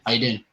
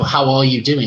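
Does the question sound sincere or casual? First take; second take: casual; sincere. First: It is tossed off as an empty greeting. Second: It is asked sincerely, with real meaning.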